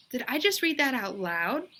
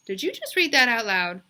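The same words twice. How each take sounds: First: Put-on puzzled girl. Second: Incredulous teacher. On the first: Bebe echoes puzzled. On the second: Teacher asks Bebe. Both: A narrator's reading.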